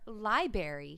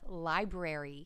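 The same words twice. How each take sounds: First: One of the R sounds is dropped. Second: Both R sounds are clearly said. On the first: The speaker calls it wrong. "drop the middles of words" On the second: The speaker calls it right. "there's two R's in library"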